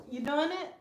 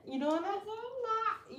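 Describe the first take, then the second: First: Said in the usual way. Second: Higher and very slow teasing; drawn-out teasing. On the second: Acted. Teasing the little girl about her yoga, drawn-out high. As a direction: stretch the question out to tease.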